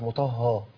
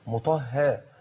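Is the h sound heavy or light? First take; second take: heavy; light. First: The h sound is heavy and thick. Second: The h sound is light and thin. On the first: The speaker calls it wrong. "مش" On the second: The speaker calls it right. "والهاء كمان لازم تطلع مرققة"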